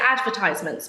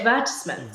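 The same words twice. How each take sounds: First: It is said with an American pronunciation. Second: It is said with a British pronunciation. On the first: "I usually say advertisements" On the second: "in England you say advertisements"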